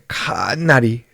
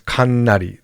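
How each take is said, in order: First: The first syllable ka is drawn out long. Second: The first syllable ka is said short. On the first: The speaker calls it right. "They might like lengthen the ka" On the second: The speaker calls it wrong. "no one says kannari"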